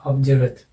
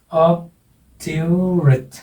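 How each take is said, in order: First: Said in the usual way. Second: obdurate slow with stress on ऑब; slow stress demo. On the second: Shown as a demonstration. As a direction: draw out obdurate, hit the first syllable. (Obdurate धीरे, पहले syllable पर ज़ोर) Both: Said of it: "पीछे से तीसरा कौन सा हो गया".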